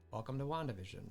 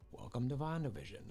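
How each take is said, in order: No difference in how they are said.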